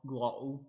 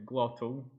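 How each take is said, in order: First: The middle t is a glottal stop. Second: The middle t is a clear t.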